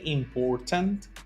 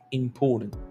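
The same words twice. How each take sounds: First: The middle t sound is clearly pronounced. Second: The middle t sound is skipped over. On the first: "You can say important. That's okay" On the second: "Como que nos brincamos la T"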